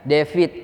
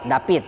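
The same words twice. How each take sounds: First: The name ends with a D sound. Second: The name ends with a T sound.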